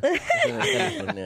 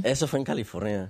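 First: Much higher, laughing through the words; laughing repeat. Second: Said in the usual way. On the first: Real, not acted. Repeating the place to friends while laughing hard. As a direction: repeat it cracking up in a high voice.

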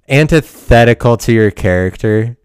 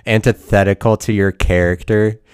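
First: ANTITHETICAL hit louder, with a punch on the middle; emphatic repeat. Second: Said in the usual way. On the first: Acted. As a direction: throw the phrase back louder, punching "antithetical". Repeats phrase, arguing with himself.

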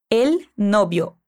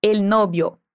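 First: Slow model answer. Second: Said in the usual way. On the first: Shown as a demonstration. Teacher slowly modelling the answer for the student. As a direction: stretch out El novio slowly, each syllable clear. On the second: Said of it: "Me fala".

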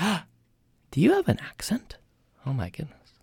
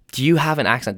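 First: Gasped, high whispery awe; mock amazement. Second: Said in the usual way. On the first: Americans hearing an unfamiliar accent, mock amazed. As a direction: imitate a starstruck listener with a breathy gasp. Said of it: "when they hear it, they're like". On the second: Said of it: "That's a funny question".

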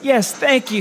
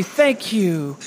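First: Higher, gushing thanks to the crowd. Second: Said in the usual way. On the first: Real, not acted. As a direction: soak up the applause. Greeting the applauding audience.

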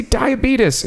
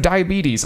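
First: "diabetes" ending in "tus", higher voice; mispronounced diabetes. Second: Said in the usual way. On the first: Retold or imitated. Cohost repeats it for disbelieving friends, "diabetes" as dye-uh-BEE-tus. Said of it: "Southern people pronouncing it wrong". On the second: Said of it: "instead of diabetes".

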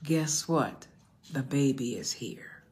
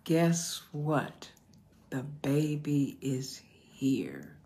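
First: Said in the usual way. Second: Slow emphatic repeat. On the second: Real, not acted. Preacher repeats the sermon topic to the congregation, slowly and emphatically.

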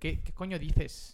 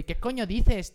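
First: Slow "coño dices" with a th for the c; showing the Spain lisp on "dices"; Castilian lisp. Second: "dices" with a th sound, pitched up; quoting friends from Spain; Castilian accent. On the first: Shown as a demonstration. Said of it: "la C y la Z la pronuncian con así". ("dices" con zeta castellana, lento) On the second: Retold or imitated. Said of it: "cada vez que llego y". ("dices" pronunciado con zeta española)

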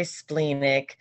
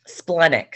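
First: "splenic" with a long ee, SPLEEN-ik; "splenic" with first syllable rhyming with "green". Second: "Splenic" with a short e, SPLEN-ik; "Splenic" rhyming its first syllable with "pen". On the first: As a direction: say "splenic" starting like the word spleen. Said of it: "Some people say splenic". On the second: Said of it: "I've heard it pronounced splenic". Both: Shown as a demonstration.

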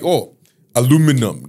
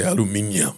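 First: "aluminum" with four syllables, a-LOO-mi-num; American "aluminum". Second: "aluminium" with five syllables, al-yoo-MIN-ee-um; British "aluminium". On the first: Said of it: "Go to a shop and say". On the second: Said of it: "That's how we say it here". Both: Shown as a demonstration.

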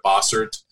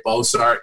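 First: Bossert with a reduced "ert" ending; correct surname pronunciation. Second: Bossart with a full "art" ending; mispronounced surname. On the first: Guest gives his own surname, correctly pronounced Bossert. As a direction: say Bossert, ending like "hurt" without the h. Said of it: "instead of Bossert". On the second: Guest quotes how people misread his surname, mispronounced Bossart. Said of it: "oftentimes people will say Bossart". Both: Shown as a demonstration.

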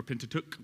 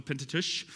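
First: Pentateuch ending in a hard k; alternative pronunciation. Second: Pentateuch ending in a soft hushing sound; variant pronunciation. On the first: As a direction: say Pentateuch with a crisp k at the end. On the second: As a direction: say Pentateuch with a softened final consonant. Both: Shown as a demonstration. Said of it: "depending on how you want to say it".

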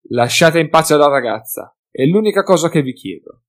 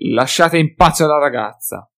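First: Said in the usual way. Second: Mimicking in a squeaky voice, consonants mangled; mocking shrill voice. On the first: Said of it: "lo scimmiottarono". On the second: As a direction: ape his words like a jeering drunk. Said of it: "con voce stridula, storpiando le consonanti".

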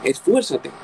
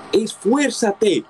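First: Said in the usual way. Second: Esfuérzate drawn out very slowly and pitched higher; Esfuérzate, slow and insistent as a preacher's command; slow emphatic exhortation. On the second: Shown as a demonstration. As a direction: stretch out Esfuérzate, every syllable urged.

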